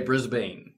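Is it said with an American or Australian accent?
American. It is said with a nasal American accent.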